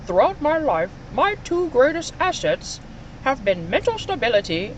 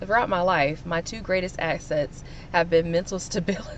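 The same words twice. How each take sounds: First: It is read in an imitated, put-on voice. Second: It is read in a plain, natural voice.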